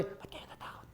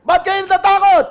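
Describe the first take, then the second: First: Whispered question. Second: High, loud shout; shouting over the waves. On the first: Preacher testing a gentle Jesus, whispered question. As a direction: breathe it without voice. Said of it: "Alam nga sabi". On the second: Jesus shouting over loud waves to the disciples, high shout. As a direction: yell it over the roaring storm. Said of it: "Hindi siya marinig". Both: Shown as a demonstration.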